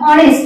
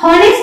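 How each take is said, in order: First: The word begins directly with a vowel. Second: The word begins with an h sound. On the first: The speaker calls it right. "ऑनेस्ट म्हणून ओ हा आपल्याला उच्चारामध्ये पहिल्यांदा" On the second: The speaker calls it wrong. "हॉनेस्ट म्हणत नाही"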